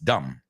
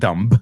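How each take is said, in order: First: The final b sound is silent. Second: A final b sound is pronounced. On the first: The speaker calls it right. "we don't even pronounce the letter" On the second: The speaker calls it wrong. "It's not dumb"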